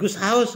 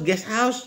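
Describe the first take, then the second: First: The first word sounds like 'goose'. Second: The first word sounds like 'guest'. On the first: The speaker calls it wrong. "Jangan goose house" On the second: The speaker calls it right. "bener-bener pengucapannya"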